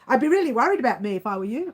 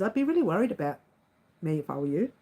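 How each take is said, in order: First: The sentence is said quickly. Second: The sentence is said at a normal pace.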